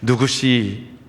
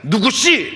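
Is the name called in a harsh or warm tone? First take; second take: warm; harsh. First: The name is called in a warm, gentle tone. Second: The name is called in a harsh, demanding tone. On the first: The caller wants to bless and restore the person. "목소리가 바뀌어서 삭개오야처럼" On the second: The caller wants to exploit the person. "전에는 누구시? 그러면 이 사람을 등쳐먹으려고 부르는 이름이었거든요"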